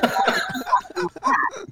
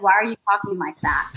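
First: Very high, hammed-up British accent mimicry; exaggerated British accent through laughter; mock British accent. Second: Said in the usual way. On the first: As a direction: squeal it back in a silly British accent, laughing. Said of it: "speaking back to him in my British accent". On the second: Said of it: "And he's like".

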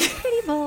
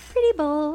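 First: Higher, airy "Pretty bowl" said again as if new; forgetful goldfish rediscovering its bowl; fish voice. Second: High, dopey little "Pretty bowl"; fish voice. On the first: Goldfish repeating her thought, dopey. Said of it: "And then I'm like". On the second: As Dory the fish, lightly dopey. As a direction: play a goldfish with no memory. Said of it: "I'm in a fishbowl, and I'm like". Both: Pretend.

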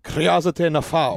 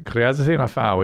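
First: Slow, careful "Kriazite nafao" with a rolled-in kri and stress on FA; trying the Greek. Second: Slow, deliberate "kriazite nafao", each syllable placed; correcting the Greek. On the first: Co-host repeats the host's Greek phrase, slowly sounding it out. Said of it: "Can you hit us with a little bit of Greek?". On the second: Host corrects himself on the Greek phrase, slow and careful. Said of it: "na-, not kriaz". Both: Shown as a demonstration.

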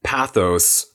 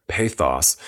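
First: Said in the usual way. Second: "pathos" said as PAY-thoss; British pronunciation. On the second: Shown as a demonstration. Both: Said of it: "or as the British say".

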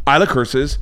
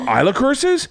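First: Said in the usual way. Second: High, rising mock disbelief; shocked question. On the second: Dad reacting to daughter's tattling, mock-shocked. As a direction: play the astonished dad.

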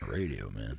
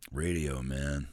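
First: Much lower, softer mock drawl; deadpan Gruden imitation. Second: Lower, softer mock Gruden. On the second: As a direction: caught doing the impression. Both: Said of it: "I'm like".

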